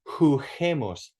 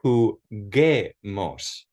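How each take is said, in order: First: The middle consonant is an English H sound. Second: The middle consonant is a hard G sound. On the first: It is not the intended word. The speaker calls it wrong. "since it says huh right there, it would be jugemos" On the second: It means let's play. The speaker calls it right. "preserve the solid sound of the G"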